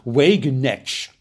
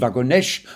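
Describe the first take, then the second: First: The name is said with an American accent. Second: The name is said with a French accent. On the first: "die Amerikaner sagen Wagenknecht" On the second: "Und die Franzosen Wagonesch"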